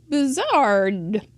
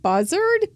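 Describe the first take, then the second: First: "Bazard" as pih-ZARD, stress on the end; trying the name. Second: "Bazard" as PAH-zerd, pitched up, testing it; trying the name. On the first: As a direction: land "Bazard" on a strong ZARD. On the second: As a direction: try "Bazard" with an open first vowel. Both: Shown as a demonstration. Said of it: "We have Vanessa Bazard".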